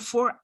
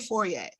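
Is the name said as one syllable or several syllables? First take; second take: one syllable; several syllables. First: The name is said as one syllable. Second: The name is said with several syllables. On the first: "would you just say four?" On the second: "Would you pronounce the E"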